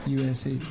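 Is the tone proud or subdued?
subdued. It is said quietly with a subdued tone. The speaker feels no pride in the country. "Now they got so quiet"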